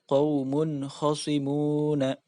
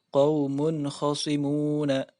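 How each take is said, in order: The two takes are said the same way.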